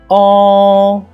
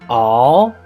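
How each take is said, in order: First: The pitch stays high and level. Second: The pitch rises from mid to high. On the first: "The first tone is a flat tone" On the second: "The second tone is a rise tone"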